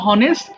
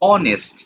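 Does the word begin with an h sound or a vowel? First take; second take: h sound; vowel. First: The word begins with an h sound. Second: The word begins directly with a vowel. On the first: The speaker calls it wrong. "কেন বলছো না হনেস্ট?" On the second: The speaker calls it right. "তো এটা দিন শেষে অ বলতে হচ্ছে। দেখো অনেস্ট"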